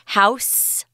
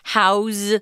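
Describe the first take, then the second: First: The word ends with a hissing s sound. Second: The word ends with a buzzing z sound. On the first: The word is used as a noun. "I'm not saying house with an S" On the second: The word is used as a verb. "I'm saying house with a Z"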